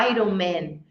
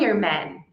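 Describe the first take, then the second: First: Iron Man wrongly as EYE-ron man; mistaken Iron Man. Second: Iron Man as EYE-urn man; corrected Iron Man. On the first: Teacher quoting the common error, EYE-ron Man. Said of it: "as pessoas acabam falando". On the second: Teacher correcting students, EYE-urn Man. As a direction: move the r before the n in Iron Man. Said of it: "Mas, na verdade". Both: Shown as a demonstration.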